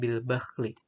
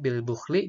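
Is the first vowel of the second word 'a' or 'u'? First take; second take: a; u. First: The second word's first vowel is a. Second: The second word's first vowel is u. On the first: "Pada qiraah yang lain" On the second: "bil bukhli dibaca dengan bil bakhli"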